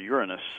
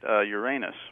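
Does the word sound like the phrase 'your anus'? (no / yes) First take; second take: no; yes. First: It does not sound like 'your anus'. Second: It sounds like the phrase 'your anus'. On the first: It avoids confusion with a body part. The speaker calls it right. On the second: It can be confused with a body part. The speaker calls it wrong.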